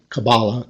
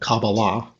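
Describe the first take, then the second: First: The stress is on the second syllable. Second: The stress is on the third syllable. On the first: "with the accent on each of them" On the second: "with the accent on each of them"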